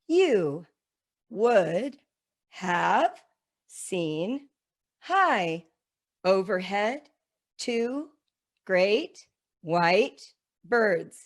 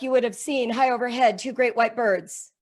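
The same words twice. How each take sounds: First: There is a pause after every single word. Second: It is rushed through with no pauses at all. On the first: "putting a comma after every word in the sentence and now reading the sentence, obeying the commas like this" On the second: "I rush through it and I show them that there's none of that pause"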